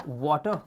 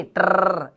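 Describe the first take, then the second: First: वाटर with the final r sounded, the wrong way; wrong pronunciation. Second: टर said without the r, as "ta"; silent final r. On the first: Teacher showing students the wrong वाटर, final r sounded. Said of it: "वाटर नहीं". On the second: Teacher showing the right टर, r silent at the end. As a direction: drop the r at the end of टर. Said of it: "last का आर silent होता है". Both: Shown as a demonstration.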